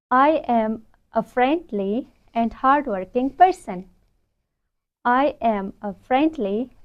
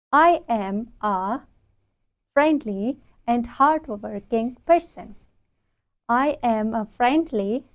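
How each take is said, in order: Both takes have the same delivery.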